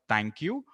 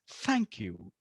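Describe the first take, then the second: First: The first sound is a stopped, t-like sound. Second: The first sound is breathy air between teeth. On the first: The speaker calls it wrong. "it's not thank you" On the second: The speaker calls it right. "It's a breathy sound"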